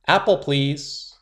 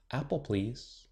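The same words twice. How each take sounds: First: Louder, slow and deliberate; loud and clear. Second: Shy, soft near-whisper. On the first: Girl ordering juice from teacher, loud and slow. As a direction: say it proudly and clearly. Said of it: "Willow said". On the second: Shy girl asking teacher for juice, softly. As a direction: murmur the order timidly. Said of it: "Willow whispered". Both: A narrator's reading.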